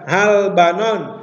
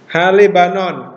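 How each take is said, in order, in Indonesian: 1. Huruf 'l' langsung menyambung ke 'banon' tanpa vokal. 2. Vokal 'e' pendek mengikuti huruf 'l'. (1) "bukan halbanon" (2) "Kenapa di sini dibaca le?"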